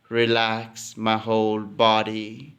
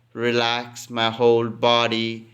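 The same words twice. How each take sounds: The two takes are said the same way.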